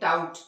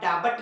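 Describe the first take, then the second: First: No b sound is pronounced before the t. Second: A b sound is pronounced before the t. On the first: The speaker calls it right. "यहाँ भी बी का कोई उच्चारण नहीं है" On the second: The speaker calls it wrong. "इसे आप डाबट नहीं पढ़ते हैं"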